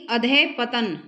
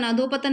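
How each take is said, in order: First: Loud अधः पतन with adhah, no o; corrected form अधः पतन. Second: Loud अधोपतन with an o after dh; wrong form अधोपतन. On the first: (अधः पतन, ज़ोर से, विसर्ग के साथ) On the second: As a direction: run अधोपतन together with adho. (अधोपतन, ज़ोर से, ओ की ध्वनि के साथ) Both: Shown as a demonstration. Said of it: "अधोपतन नहीं".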